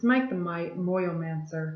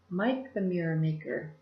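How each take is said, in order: First: The name ends with the sound 'mancer'. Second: The name ends with the sound 'maker'. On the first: The speaker calls it right. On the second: The speaker calls it wrong. "I always say that wrong"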